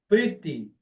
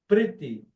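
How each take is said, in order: No difference in how they are said.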